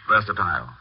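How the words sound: It is said with a British pronunciation. "the Oxonian versatile"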